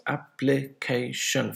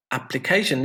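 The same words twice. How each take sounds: First: Ap-pli-ca-tion, slowly, in four separate beats; syllable by syllable. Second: Said in the usual way. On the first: Shown as a demonstration. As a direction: count out Application one syllable at a time. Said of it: "this has how many syllables?". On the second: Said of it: "On the third one".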